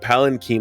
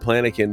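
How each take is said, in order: First: The word begins with the sounds 'pal'. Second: The word begins with the sounds 'plan'. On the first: The speaker calls it right. "someone actually called it a palanquin" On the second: The speaker calls it wrong. "I was calling a palanquin a planikin because that's how I fucking read it"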